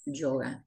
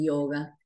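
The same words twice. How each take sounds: First: The first sound is a short, soft hissing consonant. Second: The first sound is a smooth, non-hissing glide. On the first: The speaker calls it right. "se pronuncia como ya, sonido sibilante" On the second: The speaker calls it wrong. "no se dice yoga"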